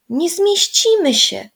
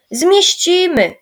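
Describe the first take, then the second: First: Put-on high, slow, doubtful little girl; a girl sure they won't fit, higher; worried child voice, high and drawn out. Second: Slow, louder, certain promise; confident boy insisting, loud and slow; reassuring. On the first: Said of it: "powiedziała Zosia". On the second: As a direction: assure them firmly, drawn out. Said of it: "zapewnił Michał". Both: A narrator's reading.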